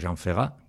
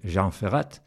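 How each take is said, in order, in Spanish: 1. La T final del apellido es muda. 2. La T final del apellido se pronuncia.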